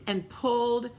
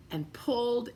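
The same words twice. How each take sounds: The two takes are said the same way.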